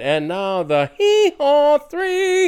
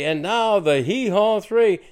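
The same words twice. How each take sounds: First: It is said in a grand announcer voice. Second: It is said in a plain, ordinary voice. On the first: The speaker calls it right. "Ed Sullivan is on stage going" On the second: The speaker calls it wrong. "you can't say"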